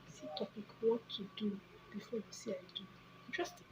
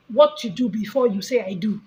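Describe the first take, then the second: First: Musing to self. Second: Said in the usual way. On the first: Real, not acted. Vlogger noting a topic idea for herself, musing quietly. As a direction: think aloud under your breath.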